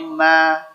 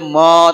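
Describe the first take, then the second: First: The vowel is open and thin, like a. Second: The vowel is rounded, sounding like o. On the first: The speaker calls it right. "tapi ma" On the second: The speaker calls it wrong. "nggak boleh mo"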